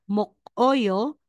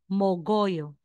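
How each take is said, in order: First: The middle consonant is a hard K sound. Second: The middle consonant is a voiced G sound. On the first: The speaker calls it wrong. "instead na sasabihin mong mokoyo" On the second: The speaker calls it right. "magiging mogoyo"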